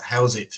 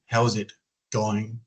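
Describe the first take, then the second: First: "How's it?" short and clipped, the going dropped; clipped Aussie greeting. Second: "How's it going?" slow, each word spelled out; slow full greeting. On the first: Showing the interviewer the shortened "How's it?". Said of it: "There's a lot of words missing". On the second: Showing the interviewer the slower full "How's it going?". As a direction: lay out "How's it going?" slowly. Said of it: "They drop the G". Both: Shown as a demonstration.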